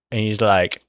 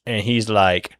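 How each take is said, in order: Both takes have the same delivery.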